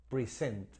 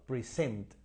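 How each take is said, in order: No difference in how they are said.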